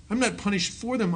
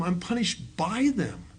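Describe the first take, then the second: First: "for" hit, contrast with by; stress on FOR. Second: Slow, "by" punched as the contrast word; stress on BY. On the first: Speaker teaching the group a distinction, stressing "for". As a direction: lean on "for" to set up the contrast. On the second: Speaker teaching the group a distinction, slow stress on "by". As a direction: land on "by", slowly and deliberately. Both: Shown as a demonstration.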